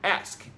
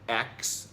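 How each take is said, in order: First: The word ends with an sk sound. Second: The word ends with a ks sound. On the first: This is the standard variant. "as opposed to ask" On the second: "to say ax"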